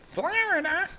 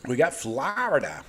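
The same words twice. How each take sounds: First: Florida stretched way up high in a mock New Jersey accent with a rising end; hammed-up New Jersey accent, squealing the name Florida; playful New Jersey accent jab at Florida. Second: Said in the usual way. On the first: Shown as a demonstration. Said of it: "New Jersey accent". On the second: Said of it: "East Coast accent".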